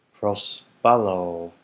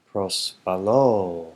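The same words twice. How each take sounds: First: Pros balo, slow and louder, leaning on balo; stressed accent on balo. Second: Pros balo again slow and louder, balo pushed; stressed accent on balo. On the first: Teacher showing students the accent, balo stressed slowly. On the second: Teacher repeating for students, balo slow and stressed. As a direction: drag out balo with a heavy accent. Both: Shown as a demonstration. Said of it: "trying to stress the accent".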